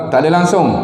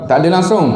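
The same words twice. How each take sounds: No difference in how they are said.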